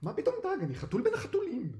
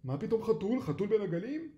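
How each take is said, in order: First: Very high, panicked cat protest; frightened, indignant squeal; alarmed. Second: Loud, high disbelieving question; puzzled fishermen scoffing; incredulous. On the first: A narrator's reading. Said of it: "קרמר נבהל". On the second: Acted. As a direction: echo the claim in loud, raised disbelief. Fishermen doubt the cat's claim.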